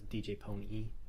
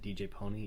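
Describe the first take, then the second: First: The last syllable is stressed after a pause. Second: The last syllable is unstressed, run together. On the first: The speaker calls it right. "kind of pause, or emphasis, I should say, on the E" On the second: The speaker calls it wrong. "if you said D J Pony, it just sounds like Y"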